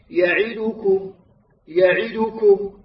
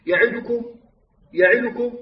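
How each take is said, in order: First: "يعدكم" ببطء مع كسرة كاملة على العين; رتّل "يعدكم" مبيّنًا كل حركة; كسرة تامّة. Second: "يعدكم" سريعة بكسرة عين مخطوفة; اخطف كسرة العين في "يعدكم"; اختلاس الكسرة. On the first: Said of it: "وكذلك في قوله تعالى". (تلاوة "يعدكم" الصحيحة بلا اختلاس) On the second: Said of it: "يقرأها خطأ". (قراءة "يعدكم" الخاطئة ناقصة الحركة) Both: Shown as a demonstration.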